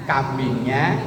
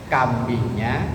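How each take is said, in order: No difference in how they are said.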